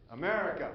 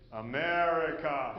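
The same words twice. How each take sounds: First: Said in the usual way. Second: "America" drawn out slowly with a knowing fall; knowing repeat. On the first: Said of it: "And I said". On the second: Retold or imitated. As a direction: say "America" as if it explains everything. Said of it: "And he says".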